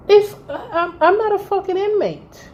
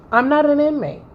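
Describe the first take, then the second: First: Indignant. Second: Said in the usual way. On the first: Real, not acted. Outraged at being compared.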